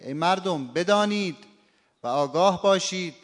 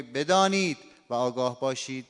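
First: بدانید and آگاه باشید pressed, pitch up; stress on the commands. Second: Said in the usual way. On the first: Shown as a demonstration. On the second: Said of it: "این دیگه نبری نداره".

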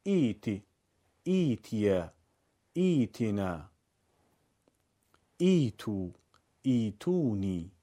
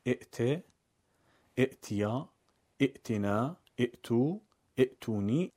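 First: Smooth long "ee" opening ایتی، ایتیا، ایتینا، ایتو، ایتونی; no glottal stop, stretch the first vowel of each ایتی form; hamza turned long i. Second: Short i cut by a glottal stop in ائت، ائتیا، ائتنا، ائتو، ائتونی; hamza as written. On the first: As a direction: say "eeti, eetiya, eetina, eetu, eetuni". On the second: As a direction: say "i'ti, i'tiya, i'tina, i'tu, i'tuni". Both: Shown as a demonstration.

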